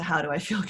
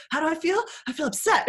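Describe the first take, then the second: First: Said in the usual way. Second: Put-on higher, louder petulant child; mock upset kid. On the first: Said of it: "going straight to". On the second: Parent imitating a child asked too pointedly, high and sulky. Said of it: "can be a little bit too pointed".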